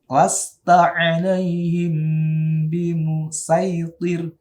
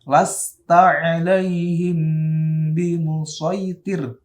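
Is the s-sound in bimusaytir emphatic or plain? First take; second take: plain; emphatic. First: The s-sound is light and plain. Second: The s-sound is heavy and emphatic. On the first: "kalau dibaca sin" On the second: "itu dibaca shad"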